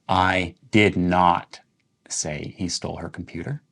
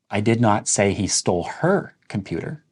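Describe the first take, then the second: First: The stress falls on "did not". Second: The stress falls on "her". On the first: The statement was never made; it is false. "when you're emphasizing did not" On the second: He stole someone else's computer. "Let's emphasize the word her"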